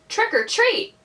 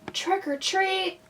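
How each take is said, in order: First: It is said a little louder. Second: It is said very softly.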